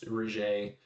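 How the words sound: The name is said with French-style sounds. "kind of like the French accent"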